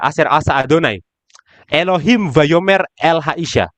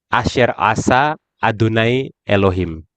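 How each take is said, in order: First: There is a pause after the word Adonai. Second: There is a pause after the word Elohim. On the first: Elohim is the one speaking to the woman. "Yang berbicara sekarang jadi Elohim, bukan Hanahas lagi" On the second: The serpent is the one speaking to the woman. "Kalau yang pertama, ya, yang bicara di sini adalah Hanahas"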